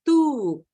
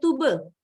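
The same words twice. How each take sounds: First: It is said with English sounds, like tyoob. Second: It is said with Indonesian sounds, like tu-be. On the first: "pengucapannya dalam bahasa Inggris" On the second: "Kalau bahasa Indonesianya tube"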